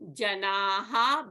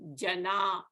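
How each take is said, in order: First: The word ends with a breathy echoed 'ha' sound. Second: The word ends on a plain vowel without 'ha'.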